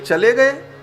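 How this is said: It is said as an asking question.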